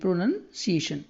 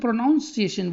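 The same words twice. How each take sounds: First: The second syllable sounds like 'nun'. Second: The second syllable sounds like 'noun'. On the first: The speaker calls it right. "प्रोनन है" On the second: The speaker calls it wrong. "बहुत सारे बच्चे प्रोनाउंसिएशन बोल देते हैं, तो ये नाउन नहीं है"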